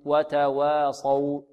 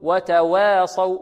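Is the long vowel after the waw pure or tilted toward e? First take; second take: pure; tilted. First: The long vowel stays pure and open, not tilted. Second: The long vowel is tilted toward an e sound. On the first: The speaker calls it right. "ننطق هكذا" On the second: The speaker calls it wrong. "هذا تقليل أو إمالة كبرى"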